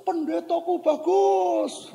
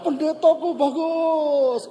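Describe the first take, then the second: First: High, slow holler; drawn-out, high-pitched call; child calling out. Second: High, loud, slow echo; imitated ringing answer, high and drawn out; echo answering back. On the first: Retold or imitated. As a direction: imitate a kid calling praise across a ravine. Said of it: "Anak itu". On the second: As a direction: imitate a ravine returning the call, stretched out. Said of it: "Jawab salah".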